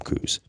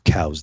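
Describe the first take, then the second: First: It uses the Arizona local pronunciation of the name. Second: It uses the standard pronunciation of the name. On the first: "anybody who's from Arizona calls them Coues" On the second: "is the actually the correct pronunciation for it"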